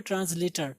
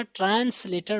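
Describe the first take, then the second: First: "ट्रांसलेटर" with a light z before the l; correct z-sound demo. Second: "ट्रांसलेटर" with a sharp s before the l; wrong s-sound demo. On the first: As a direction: say "ट्रांसलेटर" as tranz-later. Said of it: "British, दोनों में ट्रांसलेटर". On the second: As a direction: mistaken "ट्रांसलेटर" with a plain s. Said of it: "हम लोग गलत पढ़ते हैं". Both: Shown as a demonstration.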